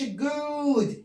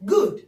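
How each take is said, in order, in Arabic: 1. الصوت بيتقال طويل ومتمدد. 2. الصوت بيتقال قصير وسريع. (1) "ما بقولش good. no" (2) "بسرعة"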